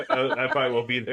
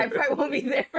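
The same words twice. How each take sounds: First: Quoting through laughter; laughing quote. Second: Higher, louder laughing repeat; laughing echo. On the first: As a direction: giggle through the line. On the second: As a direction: echo it while laughing hard. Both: Retold or imitated. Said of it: "but he's like".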